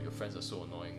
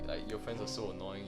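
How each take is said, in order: First: It is said in a serious, flat tone. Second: It is said in a light, joking tone. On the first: The complaint sounds genuine. The speaker calls it wrong. "Don't say it in a like serious way" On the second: The complaint is playful teasing. The speaker calls it right. "say it in a joking way"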